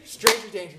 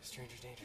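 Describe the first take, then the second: First: Warning said aloud. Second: Breathless whisper of a warning to himself; a scared kid whispering to himself. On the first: Repeating warning, then out loud. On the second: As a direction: hush it like a secret rule. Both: Retold or imitated.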